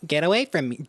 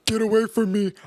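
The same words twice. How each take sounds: First: It is said in the speaker's own voice. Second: It is said imitating the man's voice.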